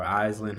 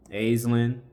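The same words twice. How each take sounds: First: "Aislinn" said as EYEZ-lin; alternative pronunciation. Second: "Aislinn" said as AYZ-lin; first pronunciation variant. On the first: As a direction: start "Aislinn" with the vowel of "eye". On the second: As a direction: start "Aislinn" with the vowel of "day". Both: Real, not acted. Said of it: "however you say it".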